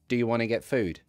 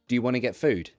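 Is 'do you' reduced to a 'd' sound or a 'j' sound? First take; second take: d sound; d sound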